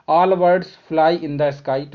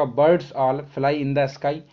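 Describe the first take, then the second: First: Very slow, each word spaced out; slow dictation. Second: Said in the usual way. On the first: Shown as a demonstration. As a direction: spell out the statement for the class. (बहुत धीमे, हर शब्द अलग) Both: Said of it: "इसका answer हो जाएगा".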